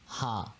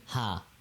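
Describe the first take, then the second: First: It sounds like a light English h. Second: It sounds like a light English h.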